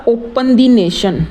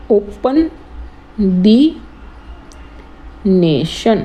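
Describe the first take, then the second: First: Said in the usual way. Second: ओपन, द, nation with long pauses between them; broken into parts. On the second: Shown as a demonstration. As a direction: set out ओपन द nation piece by piece, slowly. (ओपन... द... nation, रुक-रुककर) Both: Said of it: "जो four syllable हो".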